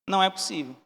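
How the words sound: It is said in a disbelieving tone. The speaker refuses to accept what he found. "já estava ali crescendo uma erva daninha da incredulidade"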